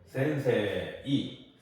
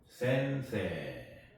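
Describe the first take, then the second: First: The word ends with an "ei" glide. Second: The word ends with a long "e" sound. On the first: The speaker calls it wrong. "센세이 이렇게 발음하면 안 되고요" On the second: The speaker calls it right. "선생님을 센세라고 그러죠"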